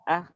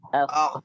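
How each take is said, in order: First: The word ends in a soft breathy h. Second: The word ends in a thick rough kh. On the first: The speaker calls it wrong. "Jangan sampai dibaca ah" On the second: The speaker calls it right. "harus dibaca akh. Akh, menebal"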